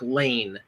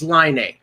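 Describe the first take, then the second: First: The name rhymes with 'lane'. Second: The name rhymes with 'line'. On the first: The speaker calls it wrong. "everybody thought it was Patrick Lane" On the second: The speaker calls it right. "we found out it was Line"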